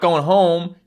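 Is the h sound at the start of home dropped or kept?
kept. The word home starts with an h sound. "you're not going home"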